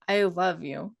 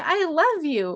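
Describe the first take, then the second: First: It sounds angry and menacing. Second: It sounds sincere and heartfelt.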